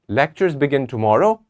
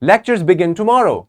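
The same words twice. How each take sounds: First: It is said as a question. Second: It is said excitedly, rising with emphasis at the end. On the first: The speaker is asking whether it is true. "It's a question" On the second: The speaker is thrilled about it. "With excitement, we can use our rising intonation and we have to emphasize at the end"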